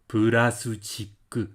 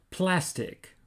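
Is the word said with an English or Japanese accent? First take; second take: Japanese; English. First: It is said with a Japanese pronunciation. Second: It is said with an English pronunciation.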